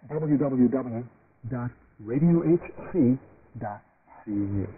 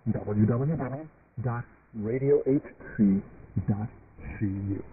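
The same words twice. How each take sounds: The two takes are said the same way.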